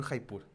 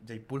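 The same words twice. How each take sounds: First: "Jaipur" starting with a Spanish jota, like "Haipur"; throaty H sound opening "Jaipur". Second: "Jaipur" starting with a Y sound, like "Yaipur". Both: Shown as a demonstration. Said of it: "Yo digo así porque ya no sé".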